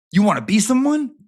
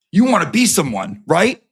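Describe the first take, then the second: First: Higher, louder mocking question; jeering question. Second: Louder jeering challenge; mocking taunt. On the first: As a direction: toss it up high as a sneering challenge. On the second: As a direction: push the taunt hard in his face. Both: Mocking confrontation of Jimmy.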